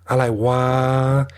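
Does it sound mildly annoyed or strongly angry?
mildly annoyed. It sounds mildly annoyed, like "what the hell."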